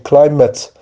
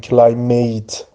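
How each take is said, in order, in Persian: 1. هجای آخر مصوت شوای ضعیف دارد. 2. هجای آخر مصوت کامل 'ate' دارد. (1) "یعنی ای کوتاه یا ا یا همون شوا تلفظ میشه، کلایمت" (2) "نگیم کلایمیت"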